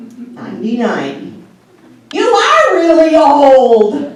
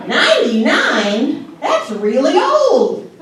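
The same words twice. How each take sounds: First: Slow, loud, laughing jab; laughing shout of a joke; teasing retort. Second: Slow, high, laughing disbelief; mock horrified old mom; shocked mother. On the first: Retold or imitated. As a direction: tease her about her age. Retort to mother. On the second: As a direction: act shocked at the age. Mother's reaction voiced.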